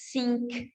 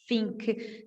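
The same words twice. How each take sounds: First: The first sound is a hissing s sound. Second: The first sound is a lip-and-teeth f sound. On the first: "não tem o som de S, então você nunca vai falar think" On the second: "o T H nunca é o som de F. Então, você nunca vai falar"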